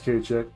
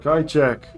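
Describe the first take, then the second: First: The first part sounds like 'kay'. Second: The first part sounds like 'kye'. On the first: The speaker calls it right. "I guess it's K check" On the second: The speaker calls it wrong. "I always say Kai when I'm in my head"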